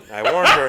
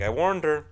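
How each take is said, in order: First: I warned her cried high and loud; high loud mock wail. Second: Said in the usual way. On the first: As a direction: wail it as a hammed-up lament. Repeated louder, higher.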